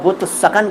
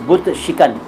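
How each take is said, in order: First: The second word is said as sakan. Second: The second word is said as shikan. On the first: The speaker calls it wrong. "ये दोनों गलत हैं" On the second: The speaker calls it right. "सही शब्द है"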